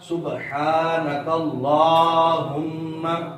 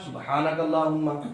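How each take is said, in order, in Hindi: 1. 'h' के बाद का स्वर लंबा है। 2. 'h' के बाद का स्वर छोटा है। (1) "दुरुस्त तलफ़्फ़ुज़" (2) "इस खड़ी हरकत की जगह हमने जबर पढ़ लिया"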